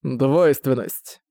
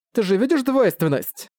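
First: Slow, toneless echo of "двойственность"; colourless voice. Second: High-pitched urgent question on "двойственность"; fierce and desperate. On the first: Sceptic echoing her word back, colourless. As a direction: repeat "двойственность" slowly with the feeling drained out. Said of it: "повторил он бесцветным голосом". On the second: Prisoner urging him to see the duality, fierce and desperate. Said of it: "заговорила инженю яростно и отчаянно". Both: A narrator's reading.

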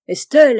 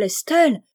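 First: Loud call rising at the end. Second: Loud, higher, falling firmly; calling out. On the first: Husband on the jetty calls his swimming wife, loud rising call. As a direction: shout her name across the water. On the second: Husband on the jetty calls his wife again, loud falling shout. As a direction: repeat her name as a stern shout. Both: A narrator's reading. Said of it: "criait monsieur Chabre".

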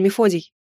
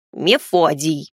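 First: Said in the usual way. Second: Drawn-out, slow little house spirit; slow grumpy house spirit. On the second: Acted. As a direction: stretch the name out slowly.

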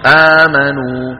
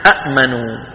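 First: آمنوا slowly with a long held "aa"; hamza turned long. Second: أأمنوا with a glottal catch closing the first syllable; two hamzas. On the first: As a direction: stretch the first vowel of آمنوا, no glottal catch. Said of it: "بيبدلوا الهمزة ألف". (آمنوا بمد البدل) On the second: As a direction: stop short after the first vowel of أأمنوا, then say "manu". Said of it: "أصلها شو". (أأمنوا بهمزة ساكنة بعد المفتوحة) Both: Shown as a demonstration.

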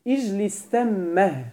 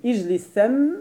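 First: "اجلس ثمه" slow, final eh with audible h; pausal ha ending. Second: "اجلس ثم" stopped on a held, vowelless mim; pause with sukun. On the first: Teacher shows students the added ha, "ثمه" ending in audible h. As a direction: stretch "ثمه", adding a breathed ha after the doubled mim. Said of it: "بإلحاق هاء السكت". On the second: Teacher shows students the other pause, "ثم" ending on bare m. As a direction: close "ثم" on a hummed double m, no vowel after. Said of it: "يوقف عليه بالسكون". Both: Shown as a demonstration.

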